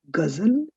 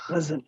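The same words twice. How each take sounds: First: "Ghazal" with a plain hard g. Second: "Ghazal" with throaty gh, softer; guttural gh. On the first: Teacher showing the wrong way, hard g. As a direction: say "Ghazal" as guh-zul, no throat friction. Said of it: "It's not Ghazal". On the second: Teacher showing the right way, guttural gh. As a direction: rasp the Gh of "Ghazal" at the back. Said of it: "See the guttural sound?". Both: Shown as a demonstration.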